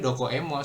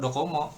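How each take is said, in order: First: An 'e' sound is heard before 'mo'. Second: No 'e' sound is heard before 'mo'. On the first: "aslinya tuh sebenarnya dokoemo" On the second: "Langsung dokomo"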